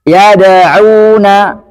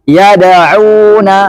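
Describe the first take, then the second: No difference in how they are said.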